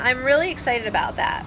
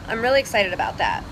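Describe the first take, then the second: First: It is said with open, genuine excitement. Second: It is said in a stiff, closed-off way. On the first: The speaker truly is excited. "the face I just had was like a face of somebody who's really excited" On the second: The words say excitement but the speaker is not open. "they look like this when they say that and they're closed"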